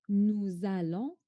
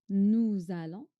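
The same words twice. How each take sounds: Both takes have the same delivery.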